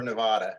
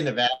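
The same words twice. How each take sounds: First: Nevada with the a of "father"; broad-a pronunciation. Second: Nevada with the a of "cat"; short-a pronunciation. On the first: Offering the other option, Nevada as "nuh-VAH-duh". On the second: Asking which is right, Nevada as "nuh-VAD-uh". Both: Shown as a demonstration. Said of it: "do you say".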